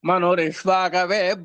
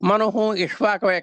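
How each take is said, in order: First: The words are joined with an r sound. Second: The words are separate, with a final h sound.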